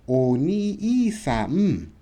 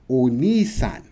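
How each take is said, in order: First: The extra i is sounded as a separate beat. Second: The i is merged into ni as one long vowel. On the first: The speaker calls it wrong. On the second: The speaker calls it right.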